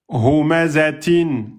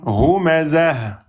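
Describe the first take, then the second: First: The word ends with an -in sound. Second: The word ends without any n sound. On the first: The reader continues without stopping. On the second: The reader stops on this word.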